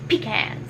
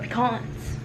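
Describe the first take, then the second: First: It is said in a plain, everyday way. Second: It is said in a fancy, refined way.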